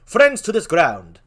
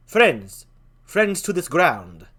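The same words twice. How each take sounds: First: Marcellus voice. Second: Horatio voice. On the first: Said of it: "How do Marcellus like this?". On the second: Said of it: "I'll talk like that". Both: Acted.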